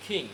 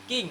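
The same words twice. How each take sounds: First: কিং with a puff on K, "khing"; aspirated K. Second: কিং with a plain, unaspirated K. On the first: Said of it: "কি বলতে হবে?". (কিং, খ দিয়ে খিং) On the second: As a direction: say কিং with no puff on K. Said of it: "কিং আর বলা যাবে না". (কিং, সাধারণ ক দিয়ে) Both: Shown as a demonstration.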